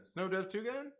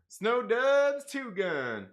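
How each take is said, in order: First: Quieter, rising, puzzled reread; puzzled question. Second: Very slow, drawn-out name read. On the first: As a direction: ask it, baffled. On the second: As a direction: stretch each word out slowly. Reading name slowly. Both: Real, not acted.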